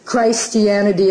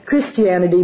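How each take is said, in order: First: The first syllable sounds like the word Christ. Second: The first syllable sounds like Kris, the usual way. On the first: It means the Christ at work everywhere. "that liberty to be able to say Christianity" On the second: It means the religion. "instead of"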